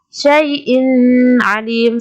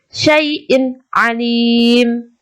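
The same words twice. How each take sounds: First: The n sound is blurred into the next word. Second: The n sound is pronounced clearly and distinctly. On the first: The speaker calls it wrong. "bukan syai'in alim, salah" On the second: The speaker calls it right. "Yang benar adalah syai'in alim"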